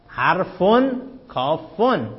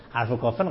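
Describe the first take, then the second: First: حرفون کافن slowly, with full -on endings; corrected reading. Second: حرف کافن with no -on ending on حرف; wrong reading. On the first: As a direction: sound out harfon, kaffon for حرفون کافن. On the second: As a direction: run حرف straight into کافن, lower. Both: Shown as a demonstration. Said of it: "حرف کافن غلطه".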